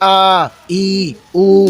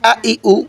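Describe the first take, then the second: First: The vowels are drawn out and said slowly. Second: The vowels are short and said quickly. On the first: The speaker calls it wrong. "এভাবে বলা যাবে না" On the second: The speaker calls it right. "তাড়াতাড়ি পড়তে হয়"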